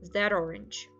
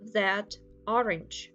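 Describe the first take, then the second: First: The final consonant links into the next vowel. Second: The two words are said separately.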